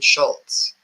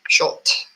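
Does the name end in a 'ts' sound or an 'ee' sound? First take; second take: ts sound; ee sound. First: The name ends in a 'ts' sound. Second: The name ends in an 'ee' sound. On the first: The speaker calls it wrong. "I was saying it wrong yesterday. I was saying Schultz" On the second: The speaker calls it right. "And it's Schultz, S C H U L T E"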